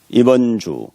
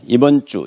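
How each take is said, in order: First: The j sound in ju is plain and lax. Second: The j sound in ju is tense, like jj. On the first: It follows the spelling letter by letter. The speaker calls it wrong. "써놓은 대로 발음하는 현상" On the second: It follows natural spoken Korean. The speaker calls it right. "해야 되는데"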